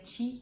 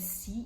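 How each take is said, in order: First: It begins with a ch sound. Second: It begins with an s sound. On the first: This is how it is said in Italian. The speaker calls it right. "mas aqui seria" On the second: This is how a Brazilian reader would say it. The speaker calls it wrong. "no Brasil a gente leria"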